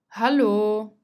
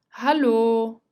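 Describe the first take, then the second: No difference in how they are said.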